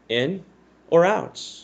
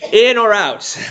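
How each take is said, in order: First: It is said flatly as a plain statement. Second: It is said forcefully as an exclamation.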